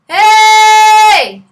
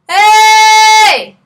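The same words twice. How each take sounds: First: A small, faint h starts the word. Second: No audible h; the vowel starts directly. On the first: "I want the H to be smaller" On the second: "I don't want to hear the H"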